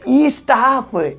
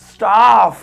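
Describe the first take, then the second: First: An extra vowel sound comes before the s. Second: The word starts directly with the s sound. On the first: The speaker calls it wrong. "आपको लग रहा है ई स्टाफ, ई स्टाफ थोड़ी होता है" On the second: The speaker calls it right. "वो ई नहीं, आधा सा है"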